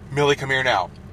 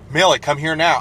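First: It is said at a normal volume. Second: It is shouted very loudly, with a cracking voice.

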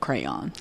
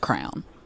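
First: The word is said as two syllables. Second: The word is said as one syllable. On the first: "Instead of crayon" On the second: "the worst one I've ever heard is probably just crown"

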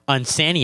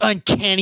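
First: The middle C is said as an S sound. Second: The middle C is said as a K sound. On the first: "pronounce your C's with the sus sound" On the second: "instead of like the cuss sound"

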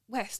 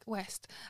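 First: The word is said boldly, with full conviction. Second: The word is said quietly, without conviction. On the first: The speaker is proud of their community. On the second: The speaker feels unsure about where they live.

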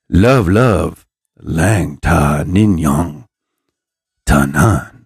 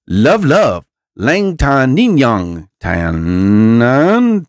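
First: The phrase is said very slowly and sultrily. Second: The phrase is said at an ordinary pace.

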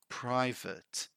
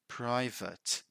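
First: The word is said like 'private'. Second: The word is said like 'private'.

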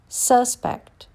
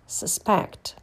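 First: The stress is on the first syllable. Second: The stress is on the second syllable. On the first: It is a noun. "First, you hear the noun" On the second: It is a verb. "and then the verb"

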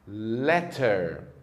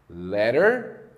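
First: The middle t is a crisp t. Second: The middle t is a quick tap. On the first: "Já no inglês britânico, a letra T tem sempre o som de T" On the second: "No inglês norte-americano, provavelmente elas vão soar assim"

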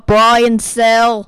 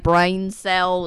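First: It is said in an imitated Australian accent. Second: It is said in the speaker's ordinary accent.

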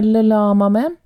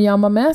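First: The word begins with an l sound. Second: The word begins with a y sound. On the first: The speaker calls it wrong. "for to L-er på spansk er ikke to L-er" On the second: The speaker calls it right. "som du sa"

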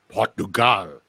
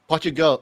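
First: It is said with a Portuguese pronunciation. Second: It is said with an English pronunciation.

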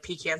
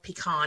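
First: The first syllable sounds like 'pee'. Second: The first syllable sounds like 'puh'. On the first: "pecan something you pee in" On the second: "I try to say pecan"

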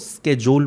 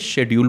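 First: It starts with a 'sk' sound, American style. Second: It starts with a 'sh' sound, British style.

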